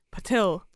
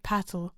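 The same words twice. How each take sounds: First: Patil with the second syllable stressed, puh-TILL; corrected pronunciation. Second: Patil with the first syllable stressed, PAT-ul; mistaken pronunciation. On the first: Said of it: "I can't pronounce anything". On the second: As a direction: say Patil to rhyme with "rattle". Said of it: "I've been pronouncing it". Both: Shown as a demonstration.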